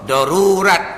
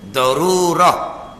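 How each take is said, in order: First: The word ends with a t sound. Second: The word ends with an h sound. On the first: "kalau berhenti baca dengan te pun boleh juga" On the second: "Kalau berhentinya bacalah dengan he"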